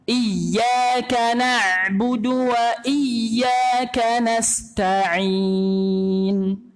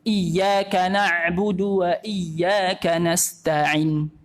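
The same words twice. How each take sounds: First: The vowel before the final n is long. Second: The vowel before the final n is short. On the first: The speaker calls it right. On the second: The speaker calls it wrong.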